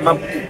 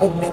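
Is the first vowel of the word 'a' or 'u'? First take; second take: a; u. First: The first vowel is a. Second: The first vowel is u. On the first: The speaker calls it right. "এটা জবরে মাবনি" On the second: The speaker calls it wrong. "তুমি মুবনি বলতেছো যে মুবনি না"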